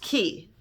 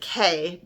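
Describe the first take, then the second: First: The word is said like 'key'. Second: The word is said like 'kay'. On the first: This is the standard pronunciation of the word. "it is actually pronounced Key" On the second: This makes the name rhyme with day. "they mean for you to pronounce it K because it rhymes with day"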